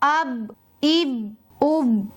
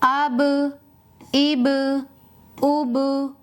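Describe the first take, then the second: First: The final b sounds stay closed without bounce. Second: The final b sounds are released with bounce. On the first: The speaker calls it wrong. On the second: The speaker calls it right.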